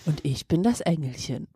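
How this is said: It sounds like a dominatrix speaking.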